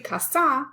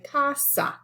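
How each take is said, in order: First: The stress is on the last syllable. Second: The stress is on the first syllable. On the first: The speaker calls it wrong. "We don't say casa" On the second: The speaker calls it right. "we say casa"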